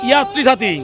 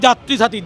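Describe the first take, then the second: First: The first word begins with a y sound. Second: The first word begins with a j sound. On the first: The speaker calls it wrong. "কেন ওয়াই দিয়ে উচ্চারণ তো আমাদের হয় না" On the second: The speaker calls it right. "যে দিয়ে হবে"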